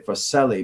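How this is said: The name is said with an English pronunciation. "Most people in English here might say"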